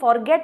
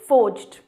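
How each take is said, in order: First: It sounds like 'forget', ending in a t sound. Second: It is said 'forjd', ending in a jd sound. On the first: The speaker calls it wrong. "इसे फॉरगेट बोल देते हैं या इसे काफ़ी गलत pronounce करते हैं" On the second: The speaker calls it right. "Pronunciation is फोर्ज्ड"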